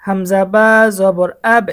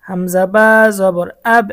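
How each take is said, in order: First: The final আব bounced with a falling echo; echo falling downward. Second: The final আব bounced with a falling echo; echo falling downward again. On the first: Teacher demonstrates the downward echo, falling bounce. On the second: Teacher repeats the downward echo, falling bounce. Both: Shown as a demonstration. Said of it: "যেমন".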